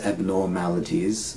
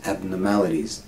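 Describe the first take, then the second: First: "abnormalities" with a full "nor" in the middle; unreduced vowel. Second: "abnormalities" with "nor" weakened to "nuh"; reduced vowel. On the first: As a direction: sound out the OR in "abnormalities". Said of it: "we don't say abnormalities". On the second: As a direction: say "abnormalities" quickly as ab-nuh-MAL-ities. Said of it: "we just say abnormalities". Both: Shown as a demonstration.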